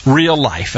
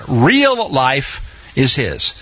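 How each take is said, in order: First: Said in the usual way. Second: "real life is his" drawn out, each word weighted; slow emphatic repeat. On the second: Shown as a demonstration. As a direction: lean on "real life", slowly.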